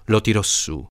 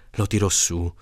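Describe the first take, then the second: No difference in how they are said.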